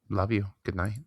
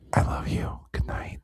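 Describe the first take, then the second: First: It is said in a plain, normal voice. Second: It is said in a sultry, seductive voice.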